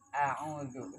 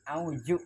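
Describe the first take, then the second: First: The middle consonant is a soft 'dh' sound. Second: The middle consonant is a 'j' sound. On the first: The speaker calls it right. "yang benar" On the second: The speaker calls it wrong. "Auju berarti zatnya ganti jadi jim"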